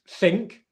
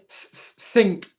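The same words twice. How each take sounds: First: The word starts with a TH sound. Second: The word starts with an S sound. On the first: The speaker calls it right. "instead of" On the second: The speaker calls it wrong. "more of an S sound"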